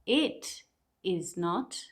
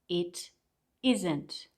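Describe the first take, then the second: First: Each word is said separately, in full. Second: The last two words are merged together.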